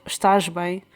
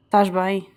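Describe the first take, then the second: First: "Estás bem" with the opening "Es" said clearly; full Portuguese form. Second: "Tás bem" dropping the first syllable; Portuguese contraction. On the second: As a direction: clip it to a quick "Tás bem". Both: Shown as a demonstration. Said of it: "instead of".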